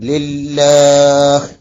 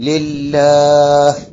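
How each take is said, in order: Both takes have the same delivery.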